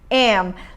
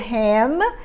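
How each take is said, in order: First: The h is dropped, giving a reduced 'em'. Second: The word begins with an audible h sound.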